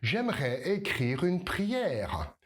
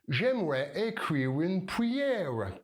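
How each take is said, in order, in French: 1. C'est un accent français natif avec des R français. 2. C'est un accent anglais, comme une patate chaude. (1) "tu vas prononcer tous les R correctement" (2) "Si tu es anglophone... Comme si tu avais une patate chaude dans la bouche"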